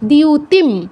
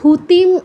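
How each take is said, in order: First: It begins with d and a y glide. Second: It begins with a breathy dh sound. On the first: The speaker calls it right. "দ যুগ ইয় দিয়, এর সাথে উকার দিউ" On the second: The speaker calls it wrong. "এগুলো বলা যাবে না"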